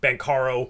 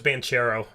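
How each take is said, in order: First: The middle consonant is a 'k' sound. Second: The middle consonant is a 'ch' sound. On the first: This is the pronunciation the speaker is now adopting. The speaker calls it right. "still like reprogramming my mind" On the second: This is the pronunciation the speaker long believed. The speaker calls it wrong. "I always thought it was Banchero for the longest time"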